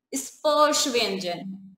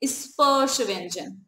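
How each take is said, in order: First: Slow clear term. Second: Slow repeat. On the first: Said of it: "कह दिया कि ये क्या है?". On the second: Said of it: "क्या है?". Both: Shown as a demonstration.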